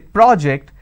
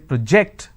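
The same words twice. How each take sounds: First: The stress is on the first syllable. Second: The stress is on the second syllable. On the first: It is used as a noun. "when I'm stressing on the first syllable, it becomes a noun" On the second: It is used as a verb. "that becomes a verb"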